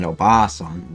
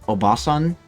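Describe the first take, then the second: First: The 'a' sound after 'Ob' is emphasized. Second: The 'a' sound after 'Ob' is plain. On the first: It means old lady or granny. "with more emphasis on the ah" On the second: It means aunt or lady. "is like aunt or just lady"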